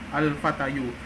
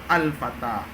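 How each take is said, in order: First: The word ends with an added 'yu' syllable. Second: The word ends on a plain long vowel. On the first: The hidden case ending is spelled out aloud. The speaker calls it wrong. "tapi kan tidak dibaca seperti itu" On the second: The case ending stays hidden. The speaker calls it right. "harusnya kita baca adalah al-fata"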